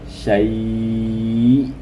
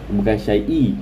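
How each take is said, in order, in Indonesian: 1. Kata itu berakhir mendadak dengan hamzah. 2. Kata itu berakhir dengan tambahan vokal i. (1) "Matikan hamzah"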